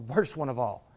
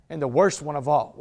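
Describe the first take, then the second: First: Worst one of all dropped low and soft; softer repeat of worst one of all; quiet echo. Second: Said in the usual way. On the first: Shown as a demonstration.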